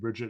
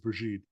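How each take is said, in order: First: The name is said the English way. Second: The name is said the French way. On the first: "your name, Bridget" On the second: "I'm giving you the French French pronunciation"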